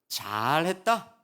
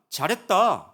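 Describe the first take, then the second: First: It is said sarcastically, meaning the opposite. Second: It is said plainly as sincere praise.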